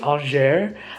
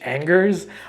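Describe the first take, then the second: First: The name is said with French sounds. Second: The name is said with English sounds. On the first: "I think it's" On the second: "if you read it in like an English accent"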